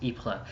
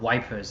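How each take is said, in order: First: It is said without the 'wipers' sound. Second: It is said like the English word 'wipers'. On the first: This is the proper name of the town. The speaker calls it right. "It was Ypres" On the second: This is how British troops said it at the time. The speaker calls it wrong. "as the British troops pronounced it at the time"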